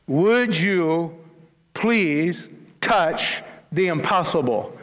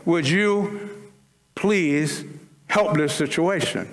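First: Earnest, stretched-out "Would you please"; pleading emphasis. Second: Said in the usual way. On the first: Retold or imitated. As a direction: press the word "Would" hard and stretch "please" like a mother's plea. Mary's plea retold with emphasis.

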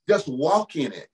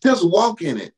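First: Said in the usual way. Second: Louder, lifted preaching cry; stirred up, press it home to the congregation; fervent. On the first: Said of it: "repeated exhortation". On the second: Real, not acted. Preacher feeling the Holy Ghost, louder fervent call. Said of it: "God, I felt the Holy Ghost".

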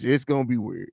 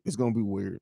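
First: Said in the usual way. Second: Softer, lower repeat under the breath; muttered echo. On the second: Real, not acted. To chat, a muttered echo of his own words. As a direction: mutter it again to yourself.

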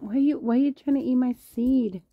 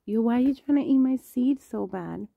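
First: High-pitched loud whisper at a pet; high whispered scolding. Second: Higher and louder, teasing the pet; high voiced scolding. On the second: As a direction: call out to the pet, high and loud. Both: Real, not acted. Scolding a pet over seed.

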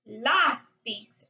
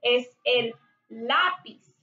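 First: Lápiz with the LÁ stressed; Lápiz, stress falling on LÁ, pis unstressed. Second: Said in the usual way. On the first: Shown as a demonstration. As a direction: lean on the first syllable of Lápiz. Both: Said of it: "one of the words with an accent".

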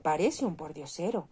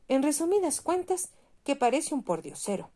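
First: A lightly voiced chorus of yes-men; echoing councillors. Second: Much higher, louder, scornful official; the mayor mocking the ragged statue; pompous mayor. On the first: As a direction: echo it meekly, just agreeing. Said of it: "repitieron a coro los concejales".

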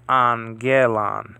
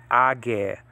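First: "angelon" slow, first gamma as N: an-ge-lon; gamma nasal. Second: "agelon" with two hard G sounds, no N; wrong double G. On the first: Teacher modelling "angelon" slowly for students. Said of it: "first one is to be pronounced with an N sound". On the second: Teacher showing the wrong way to read the word. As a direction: voice the gammas as G-G in "agelon". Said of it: "the two G sounds". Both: Shown as a demonstration.

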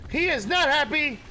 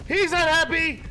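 First: He is not happy! with is and not spelled out, not hit hardest; stress on NOT. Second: He's not happy! yelled higher, stress on He's; panicked shout with the weight on He's; alarmed yell. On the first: Player repeats the warning about the mammoth, stress on not. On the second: Player yells that the angry mammoth is mad, stress on He's. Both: Real, not acted.

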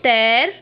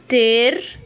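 First: تير with an open "eh", like "tehr"; corrected open vowel. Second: تير with a closed "ay", like "tayr"; wrong closed vowel. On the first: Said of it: "نو، تير". (تير بصوت e مفتوح) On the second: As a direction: say تير narrowly, as the mistake to avoid. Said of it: "احنا مش هنقوله تير". (تير بإمالة مغلقة) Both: Shown as a demonstration.

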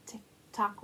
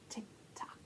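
First: Said in the usual way. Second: Whisper. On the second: Acted. Whispered in chant.

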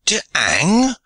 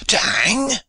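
First: Put-on To hang? with hang rising in a French accent; incredulous French accent. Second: Put-on To hang? higher still, hang rising sharply, French accent; outraged French accent. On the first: French pirate questioning his sentence, accented and rising. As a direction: ask To hang? in broken English, rising on hang. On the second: French pirate repeating his disbelief, higher and accented. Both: A narrator's reading. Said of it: "he cried in broken English".

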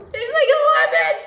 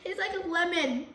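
First: Much higher and louder squeal; high squealed repeat. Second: Said in the usual way. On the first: Shown as a demonstration.

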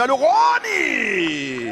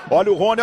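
First: Second call much higher and stretched; explosive goal commentary. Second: Olha o Rony called quickly, mid pitch; excited call. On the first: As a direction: call it, then scream it. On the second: First call, lower. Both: Real, not acted.

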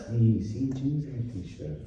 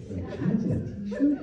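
First: Slow, soft mock Italian reassurance; Italian accent. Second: Higher, laughing disbelief on t-shirt; incredulous question. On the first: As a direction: drawl it out like a relaxed Italian host. Italian host confirming casual dress. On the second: Retold or imitated. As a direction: ask it half laughing, unable to believe it. Guest disbelieving casual dress advice.

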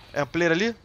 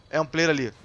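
First: Loud, rising question on "ali"; "É um player ali?" asked sharply, rising at the end; questioning rise. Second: Loud, falling end after "player"; "É um player ali" stated firmly, falling at the end; falling confirmation. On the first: Gamer spotting someone, asks his viewers, questioning rise. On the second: Gamer confirms a player over there, falling confirmation. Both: Real, not acted.

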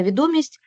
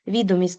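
First: Відомість with the second syllable ДО stressed. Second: Відомість with the first syllable ВІ stressed. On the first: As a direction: lean on ДО in відомість. (відомість з наголосом на другий склад) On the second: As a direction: hit ВІ in відомість. (відомість з наголосом на перший склад) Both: Shown as a demonstration. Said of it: "різні наголоси".

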